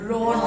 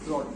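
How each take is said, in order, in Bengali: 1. শেষের d জোরালো, স্পষ্টভাবে ভাইব্রেট হয়। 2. শেষের d দুর্বল, প্রায় ভাইব্রেট হয় না। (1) "এই যে এখন ভাইব্রেট হবে" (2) "তুমি যখন নর্মালি বলবো রড"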